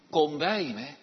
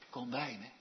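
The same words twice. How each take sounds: First: Said in the usual way. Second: Soft and low, almost whispered; hushed near-whisper. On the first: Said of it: "Hij spreekt niet". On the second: Shown as a demonstration. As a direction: murmur it gently, close by. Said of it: "hij fluistert niet".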